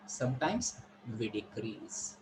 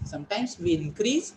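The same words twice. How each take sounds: First: DECREASE dropped low, soft and slow; lowered voice. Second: INCREASE lifted with a rising end; raised voice. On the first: Teacher showing students how we decrease the voice, lowered on DECREASE. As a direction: sink down and soften into DECREASE. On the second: Teacher showing students how we increase the voice, raised on INCREASE. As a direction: let the pitch climb on INCREASE. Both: Shown as a demonstration.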